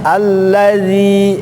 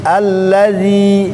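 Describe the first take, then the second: No difference in how they are said.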